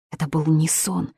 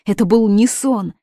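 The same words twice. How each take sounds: First: Said in the usual way. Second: Higher, louder repeat of был; insisting on был, louder and higher; louder insistence. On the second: Acted. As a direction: push it harder.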